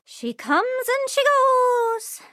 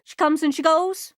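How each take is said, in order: First: Drawn-out high singsong; slow, high and dreamy. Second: Said in the usual way. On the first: Acted. A character musing aloud, slow and high. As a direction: stretch every word out, up high. Repeated line, second take drawn out.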